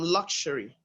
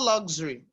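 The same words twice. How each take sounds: First: The middle consonant is an 'sh' sound. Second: The middle consonant is not an 'sh' sound. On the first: The speaker calls it right. "It's actually actually um luxury" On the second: The speaker calls it wrong. "It is not luxury like many Nigerians will call it"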